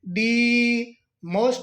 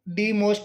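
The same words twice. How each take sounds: First: 'The' is said as a strongly stressed 'thee'. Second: 'The' is said as an unstressed 'thee'. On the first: The speaker calls it right. "दी पर विशेष तौर पर बल देंगे" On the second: The speaker calls it wrong. "छोटे वाला दी भी नहीं बोलेंगे"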